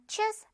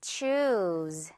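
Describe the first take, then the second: First: "choose" said briefly, vowel not drawn out; short "oo". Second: "Choose" low, long oo into a z. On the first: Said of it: "그냥 choose 아니고요". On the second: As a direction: Choose with the "oo" drawn out long and lower. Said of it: "우 발음 길게 끌어줘요". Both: Shown as a demonstration.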